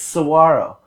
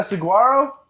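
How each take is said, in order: First: "saguaro" as suh-WAR-o; correcting to a g-less "saguaro"; local H pronunciation. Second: "saguaro" with a sounded g, sa-GWAR-o; newcomer's hard-g "saguaro"; hard G mispronunciation. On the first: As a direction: soften the g in "saguaro" to a breathy h or w. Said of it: "give it an H sound". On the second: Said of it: "When you see a G". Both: Retold or imitated.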